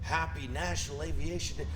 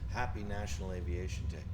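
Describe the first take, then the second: First: It is said with moderate energy. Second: It is said with the least energy.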